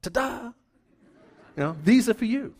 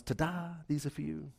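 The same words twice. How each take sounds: First: High, bright-eyed ta-da with a laugh; cheery ta-da. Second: Softer, understated ta-da. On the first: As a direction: present the flowers with a showy flourish. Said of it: "and I'll just go". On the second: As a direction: hand over the flowers quietly, no fanfare. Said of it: "I knock on the door and I present the flowers". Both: Retold or imitated.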